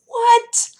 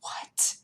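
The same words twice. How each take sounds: First: High, louder shocked what. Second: Soft stunned whisper; whispered what. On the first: Vlogger exclaiming what at airbrush foundation. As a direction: blurt it out in disbelief. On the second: Vlogger whispering what at airbrush foundation. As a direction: breathe it out in disbelief. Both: Retold or imitated. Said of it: "And I was like".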